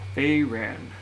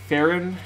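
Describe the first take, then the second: First: The first syllable sounds like 'fay'. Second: The first syllable sounds like 'fa'. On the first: This is how the name's owner says it. "That's how you pronounce it" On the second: This is how some viewers have been saying it. "have you been saying it, Farron?"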